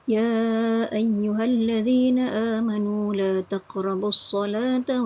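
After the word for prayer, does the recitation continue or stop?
Continues. The recitation continues past the word without stopping. Believers are told not to approach prayer while intoxicated. The speaker calls it right. "sepatutnya kita baca"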